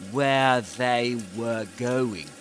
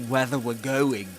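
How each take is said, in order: First: Each word is pronounced fully and separately. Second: The words blur together, sounding like 'whether we're'.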